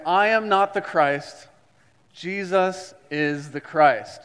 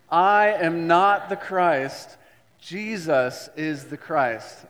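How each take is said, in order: First: Group recitation. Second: Slow, louder declaration; louder recitation. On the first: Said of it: "So I want you to stand up with me". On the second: Pastor leads congregation in louder confession. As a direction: say it louder like you mean it. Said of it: "Louder like you mean it". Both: Shown as a demonstration.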